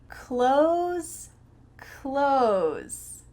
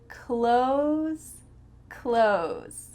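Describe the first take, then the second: No difference in how they are said.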